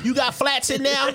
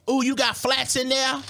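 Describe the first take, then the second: First: Raised, eager voice; imitating her again. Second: Raised, eager voice; imitating her. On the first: Retelling his date's question a second time, lightly voiced. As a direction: repeat her wide-eyed question. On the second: Retelling his date's eager question, lightly voiced. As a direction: mimic her wide-eyed excitement. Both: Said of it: "That's how she said it".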